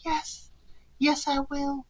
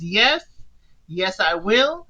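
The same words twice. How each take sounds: First: It is said very quietly. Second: It is said at normal loudness.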